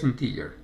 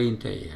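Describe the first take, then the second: First: It is pronounced with English sounds. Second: It is pronounced with Spanish sounds.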